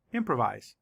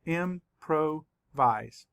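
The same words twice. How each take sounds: First: Said in the usual way. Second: "Improvise" slowly broken into im-pro-vise; syllable by syllable. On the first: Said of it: "say the word again". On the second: Shown as a demonstration. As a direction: say "Improvise" as three separate syllables, full "pro". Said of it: "Let's count the syllables".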